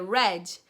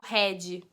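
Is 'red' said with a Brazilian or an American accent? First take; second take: American; Brazilian. First: It is said with an American English accent. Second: It is said with a Brazilian Portuguese accent. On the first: The speaker calls it right. "Ele vai olhar pra tua cara, tipo, é red" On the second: The speaker calls it wrong. "não adianta você chegar pro um americano e falar red"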